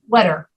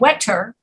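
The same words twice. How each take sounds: First: The middle consonant sounds like a soft D. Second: The middle consonant is a crisp T sound. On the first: "we tend to pronounce this double T as a double D" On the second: "we could say wetter, like the British do"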